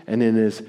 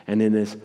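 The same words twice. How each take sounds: The two takes are said the same way.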